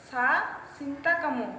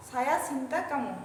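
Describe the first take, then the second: First: "সা" clipped instead of "সায়া" before "সিন্তা কামো"; wrong Malay pronunciation. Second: "সায়া" said in full with both syllables, then "সিন্তা কামো"; corrected Malay phrase after the slip; corrected Malay pronunciation. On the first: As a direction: start with "সা" by mistake, missing the "য়া". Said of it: "sorry, সা, সা না, সায়া". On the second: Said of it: "সা না, সায়া". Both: Shown as a demonstration.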